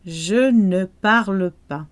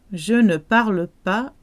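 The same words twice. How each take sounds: The two takes are said the same way.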